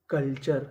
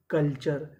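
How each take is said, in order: Both takes have the same delivery.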